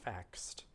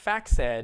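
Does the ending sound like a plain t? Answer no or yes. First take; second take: yes; no. First: The ending is a plain t sound. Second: The ending is not a plain t sound. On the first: The speaker calls it right. "It's faxed" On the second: The speaker calls it wrong. "It looks like faxed, but it's not"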